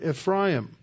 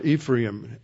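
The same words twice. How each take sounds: First: The name is said in its original, non-English form. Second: The name is said in its anglicized English form.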